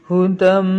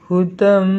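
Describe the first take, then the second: No difference in how they are said.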